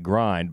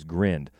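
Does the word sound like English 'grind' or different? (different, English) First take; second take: English; different. First: It sounds like the ordinary English word grind. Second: It is said differently from the English word grind. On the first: "It's spelled like grind" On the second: "they pronounce it as Grind"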